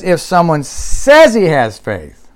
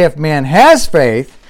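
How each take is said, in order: First: SAYS drawn out and punched; slow down and hit the word SAYS; stress on SAYS. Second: HAS stressed in "man has faith". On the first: Preacher shows what James really says, stressing SAYS. Contrasts the wording James used. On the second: Preacher shows what James does not say, stressing HAS. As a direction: lean on the word HAS. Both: Shown as a demonstration.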